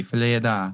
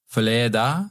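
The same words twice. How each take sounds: First: "filet da" said firmly in a French accent, falling at the end; confident French. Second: "filet da" tried out in a French accent, rising like a question; tentative French. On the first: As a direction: own the French phrase "filet da" with a flourish. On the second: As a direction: test the French phrase "filet da" hesitantly. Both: Shown as a demonstration. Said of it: "Great accent".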